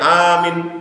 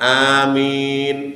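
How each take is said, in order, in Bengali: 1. দ্বিতীয় স্বরটি লম্বা করে টানা হয় না। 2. দ্বিতীয় স্বরটি খুব লম্বা করে টানা হয়। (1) "অনেকে বলে আমিন, আমিন, দুটাই ভুল।" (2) "তিন গুণ বেশি টানতে হবে মিনের ভিতরে।"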